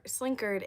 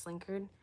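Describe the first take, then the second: First: Slinkard with a full "card" ending; original pronunciation of Slinkard. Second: Slinkard with a reduced "kerd" ending; common pronunciation of Slinkard. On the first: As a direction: say Slinkard as slink-CARD, open second vowel. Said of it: "is actually supposed to be pronounced". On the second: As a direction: say Slinkard as SLINK-erd, weak second vowel. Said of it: "everyone just says Slinkard". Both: Shown as a demonstration.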